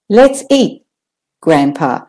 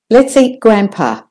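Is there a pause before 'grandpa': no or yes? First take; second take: yes; no. First: A short pause comes before grandpa. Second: It runs on with no pause before grandpa. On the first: "Can you hear that slight pause?" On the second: "the first one is without the comma"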